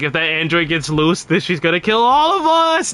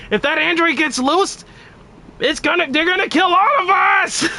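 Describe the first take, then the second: First: Trunks panic, rising. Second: High frantic scream, breaking into a cry; hysterical Trunks. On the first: Retold or imitated. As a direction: build from level warning to shriek. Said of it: "'Cause he's like". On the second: Acted. Streamer performing Trunks' meme line as a shrieking panic. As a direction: shriek it like the world is ending. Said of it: "the way Trunks".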